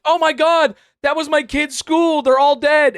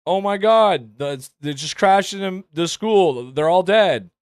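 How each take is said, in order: First: High, loud hammed-up horror shout; overacted scream. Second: Limp, half-hearted newscaster panic; flat bad delivery. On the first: Shown as a demonstration. Streamer outdoing the reporter's line, hammed-up loud shrieking grief. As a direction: oversell the reporter's panic. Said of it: "what I just did there was a better delivery". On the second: Mocking the reporter's weak original line, flat half-hearted alarm. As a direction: deliver grief with no conviction. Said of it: "than what she said".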